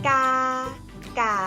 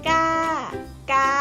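The two takes are said the same way.

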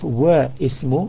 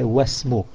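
First: The two words are separate, with the i sounded. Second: The words join into one, with the i dropped. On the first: The speaker calls it wrong. "Instead of Wa Ismu" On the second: The speaker calls it right. "we say Wasmu"

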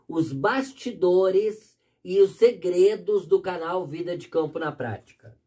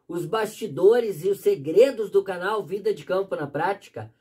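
First: The phrase is spoken very slowly. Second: The phrase is spoken at a normal pace.

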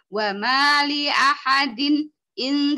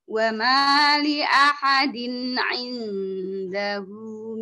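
First: The nasal is held and the phrase breaks off. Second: The nasal is brief and the phrase flows on. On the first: The speaker calls it wrong. "Tidak boleh ... tidak boleh begitu" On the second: The speaker calls it right.

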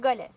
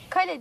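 First: The word begins with a voiced g sound. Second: The word begins with a voiceless k sound.

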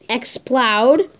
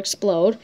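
First: The last syllable rhymes with loud. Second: The last syllable rhymes with load. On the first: The speaker calls it right. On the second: The speaker calls it wrong. "not or Explode"

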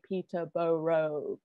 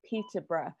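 First: Every syllable is said in full, as spelled. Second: The name is said in its usual reduced form. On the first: The speaker calls it wrong. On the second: The speaker calls it right.

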